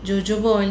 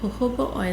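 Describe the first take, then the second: First: The word begins with a J sound. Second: The word begins with an H sound. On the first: The speaker calls it wrong. "ജോജോബോ oil എന്നൊക്കെ പറയാൻ തോന്നും, പക്ഷെ അല്ല" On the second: The speaker calls it right. "ഹൊഹോബോ oil എന്നാണ് pronounce ചെയ്യുന്നത്"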